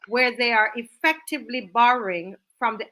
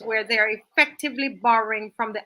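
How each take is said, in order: First: It is read slowly and deliberately. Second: It is read at a normal, quicker pace.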